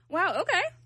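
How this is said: It is said in a sarcastic tone.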